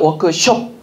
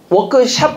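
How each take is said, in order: First: The last syllable sounds like 'shop'. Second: The last syllable sounds like 'shap'. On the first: The speaker calls it right. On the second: The speaker calls it wrong.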